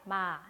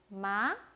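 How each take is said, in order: First: It is said at an ordinary, mid pitch. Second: It is said with a light rising pitch. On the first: "이게 한국어 보통 톤이죠?" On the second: "가볍게 올라갔죠?"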